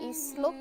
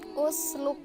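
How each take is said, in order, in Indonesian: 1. Kata ini diawali dengan vokal i. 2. Kata ini diawali dengan vokal u. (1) "nggak boleh jadi ... isluk" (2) "harus dibaca u"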